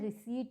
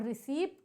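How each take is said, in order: First: The p sound is silent before the t. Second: The p sound is pronounced before the t. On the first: The speaker calls it right. "रिसीट होता है, पर silent होता है" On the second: The speaker calls it wrong. "रिसीप्ट नहीं होता है"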